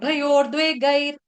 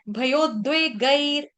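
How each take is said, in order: First: An r sound follows 'bhayo' before 'dve'. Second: No r sound follows 'bhayo' before 'dve'. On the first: The speaker calls it wrong. "भयोर द्वे गैर ऐसा उच्चारण गलत है" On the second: The speaker calls it right. "यहाँ पर भयोर नहीं है"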